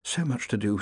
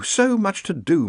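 First: Muttering. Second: Higher, slower repeat; fretful muttering. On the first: Ponder leafing through paperwork, muttering softly. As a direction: mutter it softly under the breath. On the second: Ponder fretting over paperwork, slow raised mutter. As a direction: draw it out slowly, pitched up. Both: A narrator's reading. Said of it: "muttered Ponder".

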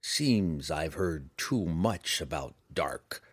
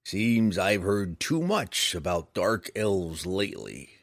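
First: Slow, grim and low. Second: Grumbling. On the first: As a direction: say it darkly and slowly. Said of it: "Roddy remarked grimly". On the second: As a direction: grumble it slowly. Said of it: "the bounty hunter grumbled". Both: A narrator's reading.

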